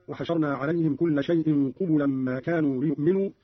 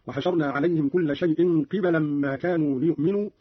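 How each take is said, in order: First: Said in the usual way. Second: قبلا with kasra on qaf, fatha on ba; Qalun's qibalan reading. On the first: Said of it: "قرأ قالون بكسر القاف وفتح الباء". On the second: Shown as a demonstration. Teacher shows Qalun's reading, قبلا pronounced qibalan. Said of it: "بكسر القاف وفتح الباء هكذا".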